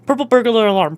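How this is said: It is said fast, drifting away from Irish. The speaker calls it wrong. "I start going away from the Irish accent when I try to say it"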